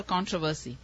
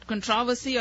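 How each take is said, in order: First: "controversy" said as KON-tro-ver-see; "controversy" with front stress and full O; stress on first syllable. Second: "controversy" said as kun-TROV-uh-see; "controversy" with a reduced first syllable; stress on second syllable. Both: Shown as a demonstration. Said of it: "controversy about how it's meant to be pronounced".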